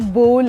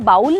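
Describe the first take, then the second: First: The vowel rhymes with 'goal'. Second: The vowel rhymes with 'howl'. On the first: The speaker calls it right. "वो बोल है" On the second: The speaker calls it wrong. "वो बाउल नहीं है"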